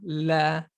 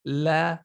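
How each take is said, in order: No difference in how they are said.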